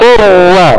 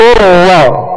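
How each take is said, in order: No difference in how they are said.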